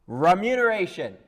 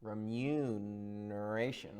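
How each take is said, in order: First: Booming, high and loud; loud proclamation. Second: Soft, slow and trailing up; slow, hushed wonder. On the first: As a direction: announce the word to the world. Costard tries the word grandly. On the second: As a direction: breathe the word like a treasure. Costard savouring the new word. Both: Acted.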